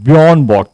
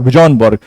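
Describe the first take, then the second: First: The first name begins with a y sound. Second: The first name begins with a j sound. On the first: The speaker calls it right. "था बेसिकली, जे साइलेंट हो जाता है" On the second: The speaker calls it wrong. "तो मैं इनका नाम पढ़ा करता था"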